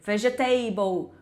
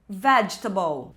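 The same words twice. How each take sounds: First: Every syllable is said, ending like 'table'. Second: Several sounds are dropped, making it shorter. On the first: The speaker calls it wrong. "O finalzinho é igual table" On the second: The speaker calls it right. "engolir várias letras"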